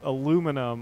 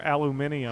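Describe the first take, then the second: First: It is said the way Americans say it. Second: It is said the way non-Americans say it. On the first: "depending on what part of the world you come from" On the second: "that is not how us Americans pronounce it"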